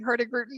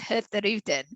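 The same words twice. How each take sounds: First: The middle g sound is clearly pronounced. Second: The middle g sound is dropped. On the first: The speaker calls it wrong. "my Canadian version of saying Hurtigruten is not quite as elegant" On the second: The speaker calls it right. "our proper pronunciation is Hurtigruten. ... you basically have to kind of drop the G"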